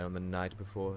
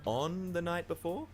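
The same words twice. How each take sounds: First: Said in the usual way. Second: "On the night before" higher and slow, rising as a question; questioning princess. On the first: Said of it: "said the royal advisor, wringing his hands". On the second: Acted. Princess seizing on the curse's timing, "On the night before" as a rising question. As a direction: query "On the night before" slowly, pitch lifted. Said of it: "said the princess".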